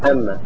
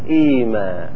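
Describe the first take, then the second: First: It starts with a and has a doubled m. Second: It starts with a long i and one m. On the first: "قد تفتح همزتها" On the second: "تبدل ميمها الأولى ياء"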